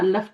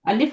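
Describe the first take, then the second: First: The vowel after the L is a. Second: The vowel after the L is i. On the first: The speaker calls it wrong. "अल्लफ तो नहीं होता" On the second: The speaker calls it right. "अलिफ होता है ना"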